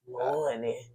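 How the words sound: It sounds grumpy and low in energy.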